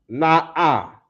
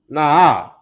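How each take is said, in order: First: The sound and breath are cut between syllables. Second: The sound flows smoothly without a break. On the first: The speaker calls it wrong. "I got that that cut in the sound" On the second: The speaker calls it right. "When it should be"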